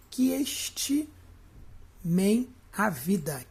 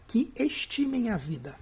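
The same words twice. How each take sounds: First: "Que estimem a vida" broken by long pauses; split reading. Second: Said in the usual way. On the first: Shown as a demonstration. Teacher showing the joined syllable, "Que estimem a vida" in halting pieces. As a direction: run "Que" into "estimem", then halt before "a vida". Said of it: "por que que não separou aqui". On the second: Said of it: "Tá vendo aqui".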